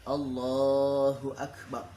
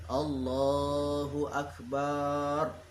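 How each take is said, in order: First: The vowel after the B is short and quick. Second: The vowel after the B is drawn out long. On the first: The speaker calls it right. "harus cepat" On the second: The speaker calls it wrong. "Tidak boleh memanjangkan huruf ba"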